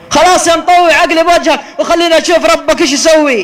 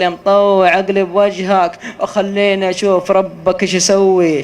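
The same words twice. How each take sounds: First: Loud, high sneering dare; mocking taunt. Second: Said in the usual way. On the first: Reenacting the reckless driver taunting the sheikh, loud sneer. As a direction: throw the challenge back with scorn.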